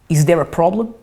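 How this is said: It sounds hostile and challenging. The speaker is inviting a fight. "When you when you want to call someone for a fight, you say"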